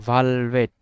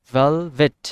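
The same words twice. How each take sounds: First: Said in the usual way. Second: velvet with a loud first syllable, lighter second; teacher demonstrating first-syllable stress in velvet. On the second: Shown as a demonstration. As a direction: punch the ভেল of velvet, ease off ভেট. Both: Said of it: "এই ভাল সিলেবলে আমরা একটু trace দিয়েছি".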